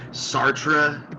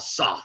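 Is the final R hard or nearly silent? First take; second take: hard; nearly silent. First: The final R is pronounced hard and clear. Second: The final R is soft and nearly silent. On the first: The speaker calls it wrong. "with a hard R at the end" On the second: The speaker calls it right. "that real sort of under, you know, silent R"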